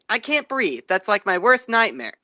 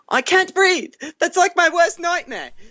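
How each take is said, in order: First: It is said in the speaker's ordinary accent. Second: It is said in a put-on British accent.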